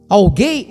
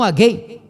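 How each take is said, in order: First: Every syllable of the word is fully pronounced. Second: The word is clipped, with sounds swallowed. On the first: The speaker calls it right. "palavra cheia, completa" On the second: The speaker calls it wrong. "e não"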